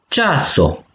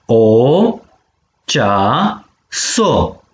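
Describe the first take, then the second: First: Said in the usual way. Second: Syllable by syllable. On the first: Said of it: "si dui silabe". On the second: Shown as a demonstration. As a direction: sound out cea - so with pauses. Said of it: "So de silabe si". (pe silabe: cea, so)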